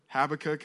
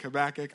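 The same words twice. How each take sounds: First: Habakkuk with stress on the first syllable, HAB-a-kook; Habakkuk said one way. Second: Habakkuk with stress on the second syllable, ha-BAK-uk; Habakkuk said the other way. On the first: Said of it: "You can pronounce it a couple different ways". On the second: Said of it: "I'm gonna choose Habakkuk". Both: Shown as a demonstration.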